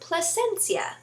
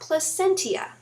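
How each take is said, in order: First: The name does not sound like placenta. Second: The name sounds like the word placenta. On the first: The speaker calls it right. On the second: The speaker calls it wrong.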